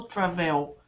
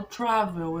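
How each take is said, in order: First: "travel" wrongly stressed on the end, tra-VEL; stress on last syllable. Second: "travel" stressed on TRA, second syllable weak; stress on first syllable. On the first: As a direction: say "travel" with a strong, open final VEL. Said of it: "eu não falo travel". ("travel" com a última sílaba forte, tra-VÉL) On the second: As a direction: say "travel" with the beat up front, TRA-vel. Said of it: "a sílaba mais forte é a primeira". ("travel" com a primeira sílaba forte, TRA-vel) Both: Shown as a demonstration.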